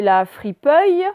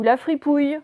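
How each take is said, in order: First: FRIPEUILLE with "euille" drawn out as a test; trying both readings. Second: FRIPOUILLE with a clear "ouille" ending; trying both readings. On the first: Teacher testing a reading for pupils, clear "euille" in FRIPEUILLE. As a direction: sound out the wrong option FRIPEUILLE. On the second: Teacher offering the second choice, clear "ouille" in FRIPOUILLE. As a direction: sound out FRIPOUILLE as the other option. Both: Shown as a demonstration. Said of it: "vous lisez, vous essayez".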